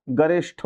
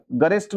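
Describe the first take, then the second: First: गरिष्ठ ending in "sh" plus aspirated th; correct ending. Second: गरिष्ठ ending in unaspirated "st"; wrong ending. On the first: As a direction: say गरिष्ठ as "ga-rish-ṭh", with a puff. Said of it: "गरिष्ठ होता है". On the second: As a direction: say गरिष्ठ as "ga-rist", no puff of air. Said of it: "गरिष्ठ नहीं होता". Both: Shown as a demonstration.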